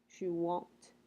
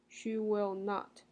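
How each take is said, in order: First: Will not is contracted into one syllable. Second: Will not is said as two full words.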